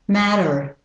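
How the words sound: It is said in an American accent. "with the American pronunciation"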